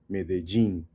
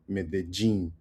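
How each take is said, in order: First: The ll is pronounced like a soft J sound. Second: The same.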